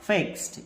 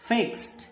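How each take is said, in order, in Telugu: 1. ఈ పదం t శబ్దంతో ముగుస్తుంది. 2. ఈ పదం t శబ్దంతో ముగుస్తుంది.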